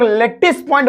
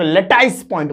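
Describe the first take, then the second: First: लैटिस said short, "let-tis" with a plain i; लैटिस as "लेटिस", short i, no ai glide; lattice as lettis. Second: लैटिस said "le-tais" with an ai glide; lattice as letais. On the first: Teacher showing students one way to say it: लैटिस as short "let-tis". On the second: Teacher showing students the other way: लैटिस as "le-tais". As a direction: stretch लैटिस into "लेटाइस", second vowel ai. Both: Shown as a demonstration. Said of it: "pronunciation का खेल है".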